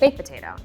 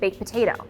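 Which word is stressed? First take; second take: baked; potato. First: The emphasis falls on the word baked. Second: The emphasis falls on the word potato. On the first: The speaker calls it wrong. "stop putting emphasis on baked" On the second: The speaker calls it right. "put emphasis on potato"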